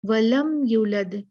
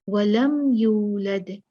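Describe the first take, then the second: First: The 'yu' vowel is cut short quickly. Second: The 'yu' vowel is drawn out long. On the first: The speaker calls it wrong. "यू खींचते नहीं, क्या कर देते हैं? जल्दी से पढ़ देते हैं।" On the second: The speaker calls it right. "जिसको हमने खींचना होता है"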